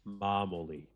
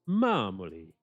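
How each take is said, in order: First: It is said in a plain, ordinary voice. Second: It is said in an exaggerated Italian-style accent.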